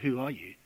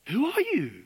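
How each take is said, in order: First: It is asked as a calm, plain question. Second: It is asked in a shocked, astonished tone. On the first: They are simply asking for his identity. The speaker calls it wrong. "they're not just going" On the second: They are stunned by what his claim implies. The speaker calls it right. "the way they speak it, is actually shock"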